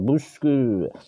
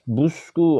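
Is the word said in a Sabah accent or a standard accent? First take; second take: Sabah; standard. First: It is said in a Sabah accent. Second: It is said in a standard accent, lips shaped. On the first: The speaker calls it wrong. "orang Sabah" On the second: The speaker calls it right.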